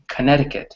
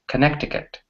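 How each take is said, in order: First: The middle C is silent. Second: The middle C is pronounced, as spelled.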